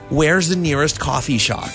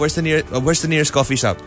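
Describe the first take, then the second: First: Each word is articulated slowly and very clearly. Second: The words are spoken casually, without careful articulation. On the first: A voice assistant would understand this. The speaker calls it right. "You really have to enunciate" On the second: A voice assistant would not understand this. The speaker calls it wrong. "She doesn't understand"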